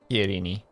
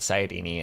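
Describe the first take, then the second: First: The word begins with a k sound. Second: The word begins with an s sound. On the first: The speaker calls it right. "it's Kairini" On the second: The speaker calls it wrong. "It's not Sairini"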